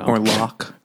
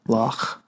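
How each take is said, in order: First: Said in the usual way. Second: "Locke" ending in a rasping back-of-the-throat ch, like German; "Locke" with a Scottish loch sound; throaty ch sound. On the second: Shown as a demonstration. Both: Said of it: "like the back of the throat".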